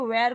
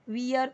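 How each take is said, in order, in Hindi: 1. इस स्वर की आवाज़ 'air' जैसी है। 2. इस स्वर की आवाज़ 'ear' जैसी है।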